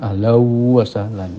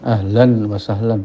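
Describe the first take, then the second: First: The n merges into the following w sound. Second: The n is pronounced clearly before wa. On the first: This follows the recitation rule of merging. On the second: This is how it is said in everyday conversation.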